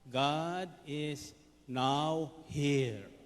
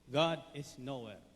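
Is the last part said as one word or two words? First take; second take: two words; one word. First: The last part is split into two words. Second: The last part is run together as one word. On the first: God is present right now. "Pinaghiwalay lang niya yung nowhere sa now here" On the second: God is nowhere to be found. "sasabihin sa inyo"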